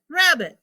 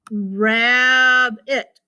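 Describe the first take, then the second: First: Said in the usual way. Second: RABBIT as a long "raaab", then a separate "it"; sounding it out. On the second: Shown as a demonstration. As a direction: blend "rabbit" slowly in two parts. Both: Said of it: "So I can figure this out".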